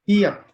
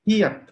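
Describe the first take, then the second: No difference in how they are said.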